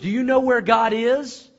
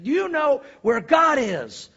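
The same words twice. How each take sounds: First: The question is asked calmly. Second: The question is asked angrily.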